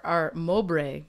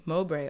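First: Mowbray said slowly and carefully as MOH-bray; careful slow correction of Mowbray; correct name. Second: Said in the usual way. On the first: Shown as a demonstration.

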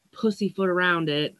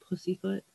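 First: Said in the usual way. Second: Pussyfoot? asked back much softer, a baffled question; puzzled echo. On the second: Real, not acted. [name] questioning the odd saying to herself, soft and baffled. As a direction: turn Pussyfoot? over, quietly puzzled. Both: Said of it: "I don't even know why that's a saying".

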